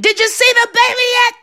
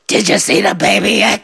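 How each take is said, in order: First: It is shouted in a high voice. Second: It is said in a deep bass voice.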